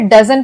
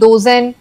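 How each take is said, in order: First: The first vowel is a short 'uh' sound. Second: The first vowel is a long 'oh' sound. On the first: The speaker calls it right. "तो हम इसे डजन पढ़ते हैं" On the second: The speaker calls it wrong. "इसे हम डोजन नहीं पढ़ेंगे"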